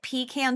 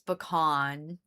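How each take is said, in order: First: It is said with a Southern pronunciation. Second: It is said with a non-Southern pronunciation.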